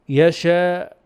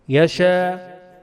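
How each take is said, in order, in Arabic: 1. ينتهي بقفل يغلق الحلق. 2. ينتهي بألف ممدودة مفتوحة، والفم مفتوح. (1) "هذا بقفل الحلق" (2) "فلا بد من فتح الفم"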